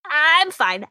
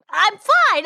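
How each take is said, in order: First: Said in the usual way. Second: Louder, higher insistence through hiccups; insisting. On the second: Acted. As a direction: push it, you're not fine. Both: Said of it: "I'm trying to tell you".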